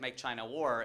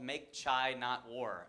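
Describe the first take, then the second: First: The phrase is said fast with words running together. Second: The phrase is said slowly with clear word breaks. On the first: The speaker calls it wrong. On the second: The speaker calls it right.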